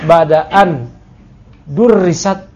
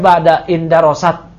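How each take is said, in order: First: A glottal stop separates the two words. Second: The two words run together without a stop. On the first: The speaker calls it wrong. "kalau pakai hamzah kotok" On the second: The speaker calls it right. "tepatnya ba'da indarosat ya, hamzahnya hamzah wasol"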